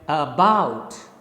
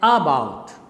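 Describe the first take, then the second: First: The stress is on the second syllable. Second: The stress is on the first syllable. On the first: The speaker calls it right. "the first syllable is unstressed... the second syllable bout is stressed" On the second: The speaker calls it wrong. "You can't say about. About is wrong"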